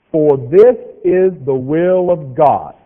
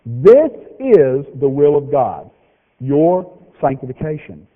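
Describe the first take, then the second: First: Very slow, louder, each word laid out; read real slow. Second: Very slow, weighty scripture reading; read slow again. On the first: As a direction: spell it out slowly for the slow learners. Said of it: "So I'm gonna read this one real slow". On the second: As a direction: lay each word down slowly so it sinks in. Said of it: "Here it is again". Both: Shown as a demonstration.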